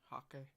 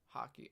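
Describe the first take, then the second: First: The name ends with a 'kay' sound. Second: The name ends with an 'ee' sound. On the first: The speaker calls it right. "So hawk like a bird. K" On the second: The speaker calls it wrong. "I don't know how to pronounce that. I'm sure I'm saying something wrong"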